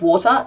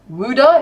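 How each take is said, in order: First: It is said in a standard accent. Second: It is said in a South Jersey accent. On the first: "instead of water" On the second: "wooder instead of"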